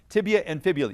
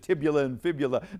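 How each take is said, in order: First: The first word is said as tibia. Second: The first word is said as tibula. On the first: The speaker calls it right. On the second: The speaker calls it wrong. "they confuse it"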